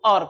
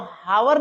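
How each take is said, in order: First: The word starts with a vowel, no h. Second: The word starts with an h sound. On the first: The speaker calls it right. "इसको हम लोग और पढ़ते हैं" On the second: The speaker calls it wrong. "हावर नहीं"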